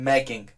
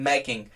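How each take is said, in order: No difference in how they are said.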